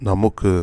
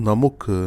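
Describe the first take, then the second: Both takes have the same delivery.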